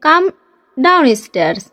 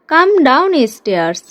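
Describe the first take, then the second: First: Said in the usual way. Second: Slow, drawn-out teacher repeat. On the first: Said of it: "teacher's first take of the phrase". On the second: Shown as a demonstration. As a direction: stretch each word for the learner. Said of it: "teacher repeats the phrase slowly". (ধীরে ধীরে স্পষ্ট উচ্চারণ)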